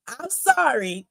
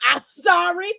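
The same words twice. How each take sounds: First: Said in the usual way. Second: High, rising mock sorry with a grin; mock apology. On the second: Real, not acted. Sorry said high and rising, not meaning it. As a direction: fake apology to her viewers.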